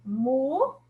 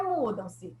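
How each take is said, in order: First: "Mudam-se" broken into mu, dam, se with gaps; teacher counting out the syllables of "Mudam-se"; syllables separated. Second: Said in the usual way. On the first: Shown as a demonstration. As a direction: say "Mudam-se" one syllable at a time. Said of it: "observem que elas ficaram separadas". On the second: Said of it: "a palavra é mudam-se".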